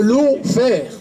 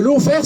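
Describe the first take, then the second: First: "lawfare" said slowly in a self-mocking English accent, "law-fare". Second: Said in the usual way. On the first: Shown as a demonstration. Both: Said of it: "excusez mon accent anglais".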